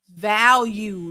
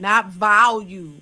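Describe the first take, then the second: First: The first syllable sounds like 'val'. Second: The first syllable sounds like 'vol'. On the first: The speaker calls it right. "It's V A L U E" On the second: The speaker calls it wrong. "they be saying value, like volume"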